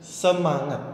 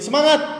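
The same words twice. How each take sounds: First: The word is broken up by pauses. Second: The word is said loudly. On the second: "kita main volume tinggi"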